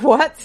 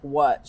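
First: High, loud retold "What?"; incredulous. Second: Said in the usual way. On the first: Woman reacting to friend's steak confession, in loud disbelief. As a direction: jump up in pitch, rising in disbelief. Stunned repeat of her reply.

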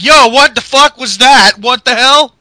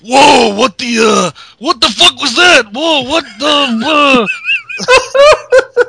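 First: Loud, high mock yell; Ryback yelling. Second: Loud, higher put-on Ryback shout. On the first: Ryback yelling at the ring, mock loud and high. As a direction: yell it in confusion. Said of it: "Ryback's like". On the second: Retelling Ryback baffled in the ring, loud put-on voice. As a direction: belt it out like the big man. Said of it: "I should do it in his voice".

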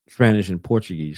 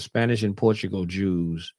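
First: "Portuguese" said in full, por-chu-GEEZ, as a careful fix; corrected reading. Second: "Portugal" read where Portuguese is written, said like the country name; stumbling over "Portugal", reading it as the country; misread word. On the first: Correcting himself while reading to his listeners, careful. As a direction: reread with "Portuguese" pronounced properly. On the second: Reading the encyclopedia aloud to listeners, misreading. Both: Shown as a demonstration. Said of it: "Say it again".

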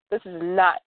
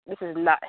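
Both takes have the same delivery.

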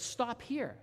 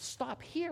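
First: Put-on girl tells the man driving her to stop, high-pitched; lightly voiced child, pitched up, falling at the end; little girl's request. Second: Very high, incredulous echo rising at the end; retold puzzled driver, pitch jumping way up; surprised question. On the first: Little girl asking the driver to pull over, high falling voice. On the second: Driver questions the little girl's stop, high and surprised.

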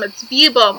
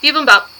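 First: "bibum" said clipped short, one syllable missing; mock the short "bibum"; imitating mispronunciation. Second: "Bibimbap." said in full as "bibum-bap" with all three syllables; correct pronunciation. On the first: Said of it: "you said bibum". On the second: Shown as a demonstration. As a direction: spell out "Bibimbap." in three beats. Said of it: "Okay, so bibimbap".

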